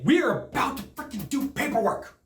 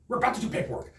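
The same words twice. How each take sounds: First: High, emphatic retold protest; worked-up protest, pitched up; exasperated. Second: Toned-down repeat of a protest; slightly raised pitch, restrained disbelief; exasperated aside. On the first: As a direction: stress each word in exasperated disbelief. Retold exasperation at interrupted closing. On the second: Retold or imitated. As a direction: say it under the exasperation, less emphatic. Same protest repeated lower.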